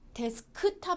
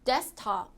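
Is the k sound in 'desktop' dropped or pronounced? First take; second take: pronounced; dropped. First: The k sound in the middle is fully pronounced. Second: The k sound in the middle is dropped. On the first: The speaker calls it wrong. "데스크탑 아니고" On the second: The speaker calls it right. "가운데 K가 ... 탈락이 되죠"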